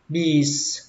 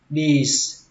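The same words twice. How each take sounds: The two takes are said the same way.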